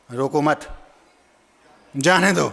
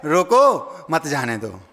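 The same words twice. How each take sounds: First: "रोको मत" as one phrase, long pause, then "जाने दो"; low "रोको मत", separate firmer "जाने दो"; pause after मत. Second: Stretched "रोको", break, then "मत जाने दो" run together; slow "रोको", then a dropped "मत जाने दो"; pause before मत. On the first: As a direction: break after मत, keeping it joined to रोको. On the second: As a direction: attach मत to जाने दो. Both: Acted. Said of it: "जहाँ रुकना था वहाँ ना रुके".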